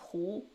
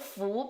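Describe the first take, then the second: First: The syllable begins with an h sound. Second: The syllable begins with an f sound. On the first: "becomes Hu" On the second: "All the Fu"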